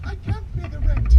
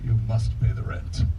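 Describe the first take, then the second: First: High, pleading damsel voice; damsel in distress. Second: Lightly voiced menacing villain; a hint of a melodrama baddie; sneering panto villain. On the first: Acted. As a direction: squeak it like a helpless heroine. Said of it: "a damsel". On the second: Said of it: "A villain".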